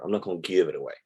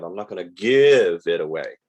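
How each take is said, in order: First: Said in the usual way. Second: Louder, leaning hard on "give" in "I'm not gonna give it away"; flat-out "I'm not gonna give it away", "give" stretched and punched; blunt refusal. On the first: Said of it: "how much are you selling it for". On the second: Retold or imitated. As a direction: seller shutting the door, "give" hit hard. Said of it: "their answer is straight up".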